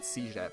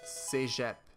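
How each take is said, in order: First: The word is pronounced the English way. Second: The word is pronounced the French way.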